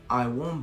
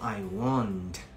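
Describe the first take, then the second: First: The final T of won't is dropped. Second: The final T of won't is clearly pronounced. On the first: The speaker calls it right. "yo digo I won't buy" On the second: The speaker calls it wrong. "yo no digo I won't"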